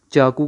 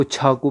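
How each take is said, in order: First: چاقو with a plain unaspirated ch; Urdu pronunciation. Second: چھاقو with an aspirated ch; Persian pronunciation. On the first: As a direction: say چاقو the Urdu way, no puff of air. (چاقو اردو تلفظ میں، بغیر ہوا کی چ) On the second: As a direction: let air puff out after the ch of چھاقو. (چھاقو فارسی تلفظ میں، ہوا والی چھ) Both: Shown as a demonstration. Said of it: "چاقو کو چھاقو پڑھ رہے ہیں".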